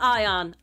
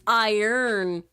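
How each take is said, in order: First: The word ends with an 'on' sound. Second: The word ends with an 'earn' sound. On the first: The speaker calls it wrong. "It's not ion. Ion is its own words" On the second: The speaker calls it right. "It's iron. Earn"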